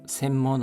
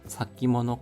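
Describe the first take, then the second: First: The word is pronounced senmono. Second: The word is pronounced sakimono. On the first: The speaker calls it wrong. "센모노라 발음하지 않고" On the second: The speaker calls it right. "사기모노라고 발음합니다"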